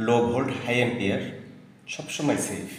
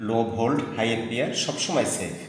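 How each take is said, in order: Both takes have the same delivery.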